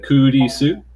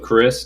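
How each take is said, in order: First: The name is said as three Japanese syllables. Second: The name is said as one English syllable.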